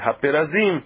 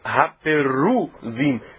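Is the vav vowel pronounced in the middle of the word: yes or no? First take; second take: no; yes. First: The middle vowel from the vav is left out. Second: The middle vowel from the vav is pronounced. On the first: This is the form as read aloud. "mas a gente não lê esse Vav, ele é ignorado, se lê Haperazim" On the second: This is the form as written in the text. "está escrito Haperuzim, tem Vav"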